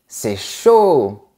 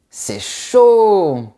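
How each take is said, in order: First: "c'est chaud" with a falling tune on "chaud"; that intonation. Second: Surprised dismay. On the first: Teacher showing the tune of "c'est chaud", falling. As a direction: drop the pitch on "chaud". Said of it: "Dit avec cette intonation". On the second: Hearing a friend's flight to Paris is cancelled, surprised. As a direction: react to bad news with a wince. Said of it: "pour montrer ta surprise". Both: Shown as a demonstration.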